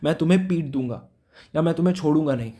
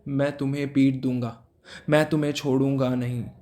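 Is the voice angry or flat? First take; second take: angry; flat. First: It is said in an angry voice. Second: It is said plainly without feeling.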